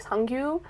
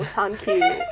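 First: "Sangyu" said softly with a soft g, the Korean way; full Korean pronunciation. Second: "Sankyu" with a k, like English "thank you"; anglicised name. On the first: Shown as a demonstration. Daughter giving her dad's real name, "Sangyu" in Korean pronunciation. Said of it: "his name is, fully, like". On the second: Retold or imitated. Dad simplifying his name for customers, "Sankyu" like "thank you". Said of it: "but it's, like, "Oh".

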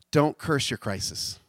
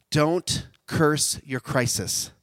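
First: Said in the usual way. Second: "Don't curse your crisis" drawn out slowly, DON'T leaned on; slow emphatic line. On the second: Shown as a demonstration. Preacher landing his key line, slow and emphatic.

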